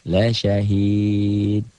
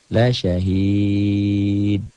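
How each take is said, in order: Both takes have the same delivery.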